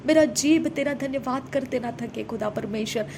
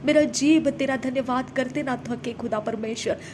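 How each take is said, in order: Both takes have the same delivery.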